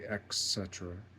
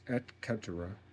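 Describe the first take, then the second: First: It begins with a 'k' sound instead. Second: It begins with a clear 't' sound. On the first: "They put the C before the T in pronunciation" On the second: "it's et cetera"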